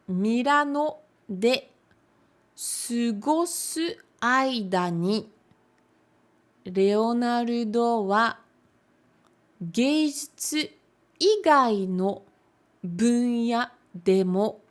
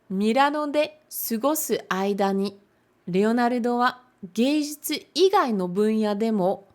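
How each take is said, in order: First: The sentence is read at a slower pace. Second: The sentence is read at a faster pace.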